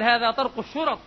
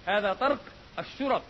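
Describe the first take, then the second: First: Louder, a pointed remark meant to be overheard; loud retort aimed at the knocker outside; raised for her to hear. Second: Said in the usual way. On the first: Retold or imitated. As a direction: say it loud enough to carry through the door. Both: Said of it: "وقال حتى أسمعها".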